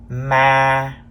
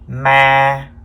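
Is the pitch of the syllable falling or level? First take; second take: level; level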